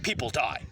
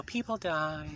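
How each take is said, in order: First: Said in the usual way. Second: Put-on, drawn-out girly voice; mock-girlish lilt; girl's voice. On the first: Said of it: "maybe it's the tone of my voice". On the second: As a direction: say it like you're a girl. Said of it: "if I'm a girl".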